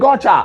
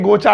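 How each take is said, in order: First: It is said in an affected, exaggerated English style. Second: It is said plainly, without exaggeration.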